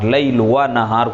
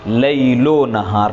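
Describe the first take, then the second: First: The 'va' is said as a separate word. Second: The 'o' is joined onto the first word. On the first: The speaker calls it wrong. "कोई पढ़े तो ये गलत है" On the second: The speaker calls it right. "लैलो नहार आप कहें तो ठीक है"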